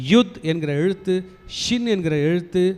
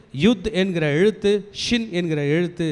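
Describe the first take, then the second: No difference in how they are said.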